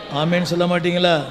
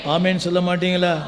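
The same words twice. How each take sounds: The two takes are said the same way.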